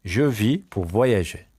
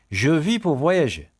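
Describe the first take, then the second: First: Measured, slow French model sentence; slow repeat. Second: Said in the usual way. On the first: Shown as a demonstration. Teacher repeats a travel sentence for pupils, slowly. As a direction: spread the words out for learners.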